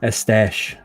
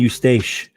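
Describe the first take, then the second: First: It does not sound like the name Eustace. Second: It sounds like the English name Eustace. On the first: The speaker calls it right. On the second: The speaker calls it wrong.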